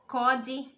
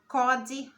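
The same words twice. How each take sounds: No difference in how they are said.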